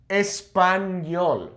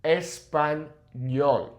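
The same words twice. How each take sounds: First: "Español" with a plain N, slow; "Español" said with a plain N sound, no Y; wrong N. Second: "español" with ñ as N plus Y, very slow; "español" stretched, the ñ an N and a Y together; ñ sound. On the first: Teacher slowly showing the wrong way, with "Español" said with a plain N. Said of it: "So it's not nol". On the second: Teacher slowly demonstrating the right ñ in "español". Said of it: "it's ñol". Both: Shown as a demonstration.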